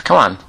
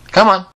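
First: Said in the usual way. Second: Coaxing call, higher. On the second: Acted. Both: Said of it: "you can come back with me".

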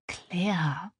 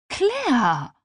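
First: Soft whispered name; tröstend. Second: High, loud, falling cry of the name; entsetzter Ausruf. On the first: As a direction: say the name gently, almost without voice. Freundin tröstet die Weinende. (sanft geflüstert) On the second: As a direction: call out the friend's name in shock. Freundin reagiert entsetzt auf Geständnis. (entsetzt ausgerufen) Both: Acted.

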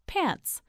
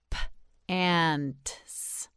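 First: Said in the usual way. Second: "P-ants" broken into a separate p, then a drawn-out ants; sounded-out word. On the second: Shown as a demonstration. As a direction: sound out "P-ants" slowly, piece by piece. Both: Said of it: "You say it, say pants".

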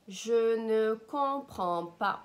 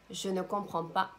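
First: Slow, louder, word-by-word demonstration; slow model. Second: Said in the usual way. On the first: Shown as a demonstration. Language teacher modelling a French phrase for learners, slowly and loudly. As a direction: stretch each word out for the learner.

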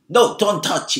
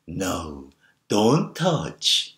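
First: Loud, quick, stern order; sharp scolding to stop a child; sharp, forbidding tone. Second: Put-on gentle baby-talk murmur; cooing encouragement. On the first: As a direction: snap it as a firm prohibition. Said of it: "날카롭고 어떤 금지하는 톤으로 얘기되어졌습니다". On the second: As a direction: coo the warning as if it were praise. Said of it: "좀 속삭이듯, 그리고 격려하는 목소리 톤으로". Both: Shown as a demonstration.

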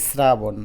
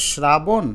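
First: শ্রাবণ opening with a plain "sr"; s pronunciation. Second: শ্রাবণ opening with a hushed "shr"; sh pronunciation. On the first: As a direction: say শ্রাবণ as "srabon". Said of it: "আমরা বলি শ্রাবণ". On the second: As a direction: say শ্রাবণ as "shrabon", drawn out. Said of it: "উচ্চারণ হওয়ার কথা কিন্তু শ্রাবণ". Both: Shown as a demonstration.

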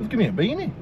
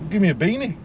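Both takes have the same delivery.

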